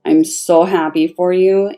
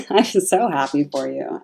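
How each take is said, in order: First: Said in the usual way. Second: Laughing through the line, softer; happy laughing repeat. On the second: Real, not acted. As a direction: giggle as you say it again.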